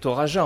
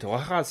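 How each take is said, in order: First: The j is a soft French j sound. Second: The j is a harsh Spanish throat sound. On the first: The speaker calls it right. "On peut dire Toraja" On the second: The speaker calls it wrong. "c'est pas la rota espagnole, donc il faut éviter Toraja"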